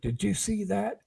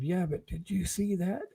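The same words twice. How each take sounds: First: High, startled half-whisper; hushed surprise. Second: Softer, whispered insistence; insistent whisper. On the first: Telling bandmates in the dark van, startled hushed blurt. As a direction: blurt it out in shock but keep it down. Shocked by head at window. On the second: Hushed by bandmates, he insists in a softer whisper. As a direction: press the question under your breath. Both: Retold or imitated.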